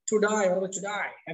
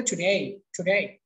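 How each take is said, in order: First: Slow British today, টু ডাই ending in "eye"; British pronunciation. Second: American টুডে, tu-dey; American pronunciation. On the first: Teacher showing how British speakers say it, টু ডাই as "to die". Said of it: "এটা যে আপনার British". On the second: Teacher contrasting with British today, American টুডে ending in "ey". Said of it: "আর আমেরিকানরা বলে". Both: Shown as a demonstration.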